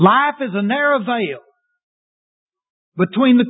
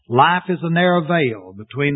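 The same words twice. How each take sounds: First: It is spoken with strong, lively emphasis. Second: It is spoken in a flat, monotone voice. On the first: "Let's put some emphasis on it" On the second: "I'm first of all going to quote them in a monotone voice"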